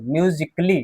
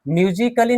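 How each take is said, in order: First: म्यूजिकली as myu-jik-lee, pitch dropped; silent A. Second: म्यूजिकली as myu-ji-ka-lee, four syllables; wrong, A sounded. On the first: Teacher correcting the reading, म्यूजिकली in three syllables. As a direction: drop the A in म्यूजिकली, k straight into lee. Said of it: "म्यूजिकली नहीं". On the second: Teacher showing the reading to avoid, म्यूजिकली with a sounded A. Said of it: "नहीं". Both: Shown as a demonstration.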